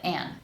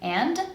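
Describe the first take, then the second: First: The word ends without any D sound. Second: The word ends with a clear D sound. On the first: "or without it, I can just drop it" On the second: "I can pronounce it with a D"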